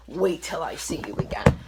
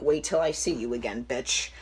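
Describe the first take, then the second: First: Whispered menace on "Wait till I see you again"; threatening whisper. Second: Said in the usual way. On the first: Retold or imitated. Texting the girl who took her boyfriend, a whispered threat. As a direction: hiss the threat under your breath. Threatening text read aloud.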